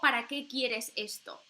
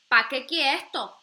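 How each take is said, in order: First: It is said in a neutral accent. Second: It is said with a marked regional accent.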